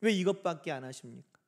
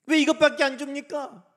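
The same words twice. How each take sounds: First: Low-pitched muted complaint; acted discontent, held down; subdued grumble. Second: High, loud grievance; acted discontent, voice raised; open complaint. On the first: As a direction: grumble it under restraint. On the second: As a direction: protest it out loud. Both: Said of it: "불평은요".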